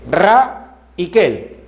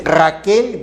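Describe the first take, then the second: First: RA, pause, KEL, both drawn out; syllable by syllable. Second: Said in the usual way. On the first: Shown as a demonstration. Teacher checking Raquel for vowel sequences, syllable by syllable. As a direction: slowly split Raquel into RA and KEL. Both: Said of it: "No hay concurrencia".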